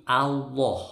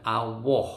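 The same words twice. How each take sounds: First: "Allah" with a full heavy l, firm and a little louder; correct pronunciation. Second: "Allah" with a rounded w-like middle, awoh; wrong pronunciation. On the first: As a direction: say "Allah" the right way, heavy lam. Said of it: "tapi Allah". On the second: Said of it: "bukan Allah ya". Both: Shown as a demonstration.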